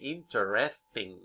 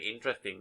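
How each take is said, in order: First: The word is said with four syllables. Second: The word is said with three syllables. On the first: "Many people say interesting. Yes, four syllables" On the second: "I say interesting"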